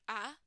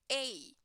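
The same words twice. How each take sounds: First: "a" said as a short, weak uh; schwa a. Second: "a" said as a full "ay" like the letter name; long ay a. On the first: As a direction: say "a" as a quick unstressed uh. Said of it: "we can hear the pronunciation a". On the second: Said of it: "or you can hear the pronunciation a". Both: Shown as a demonstration.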